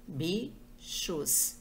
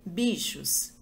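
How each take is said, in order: First: "bichos" stretched out slowly as bi-chos; "bichos" spoken syllable by syllable, pausing between bi and chos. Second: Said in the usual way. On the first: Shown as a demonstration. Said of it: "falando a palavra devagar".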